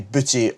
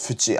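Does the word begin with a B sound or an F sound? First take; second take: B sound; F sound. First: The word begins with a voiced B sound. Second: The word begins with a soft F sound. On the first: The word is joined to another word. The speaker calls it wrong. "You can't just say buchi or gane on their own" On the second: The word stands on its own. The speaker calls it right. "the actual word on its own is fuchi"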